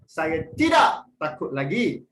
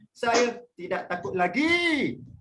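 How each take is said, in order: First: The word tidak carries the main stress. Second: The word lagi carries the main stress. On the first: "Kita tekankan kepada perkataan tidak tu" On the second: "Nak tekankan ke perkataan lagi"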